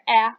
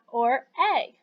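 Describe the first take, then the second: First: A short vowel, as in 'cat'. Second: A long vowel, like the letter's name 'ay'. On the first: "a is the short sound" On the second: "a is the long sound because a is saying its name"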